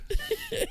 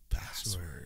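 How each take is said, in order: First: Laughing. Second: Soft, seductive breathy whisper; sexy voice. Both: Shown as a demonstration. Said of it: "but in a sexy voice".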